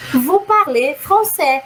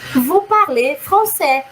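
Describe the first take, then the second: First: It is said with a statement intonation. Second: The same.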